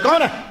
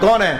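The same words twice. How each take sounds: First: It is asked in a sharp, harsh voice. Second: It is asked in a soft, sweet voice. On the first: The speaker calls it right. "जरा आवाज में तुरशी बनाकर" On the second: The speaker calls it wrong. "ऐसे तो नहीं"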